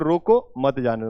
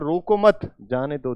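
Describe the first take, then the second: First: The pause comes after रोको. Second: The pause comes after मत.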